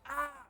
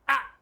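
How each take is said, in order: First: The scream lasts a little before stopping. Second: The scream is cut off almost instantly.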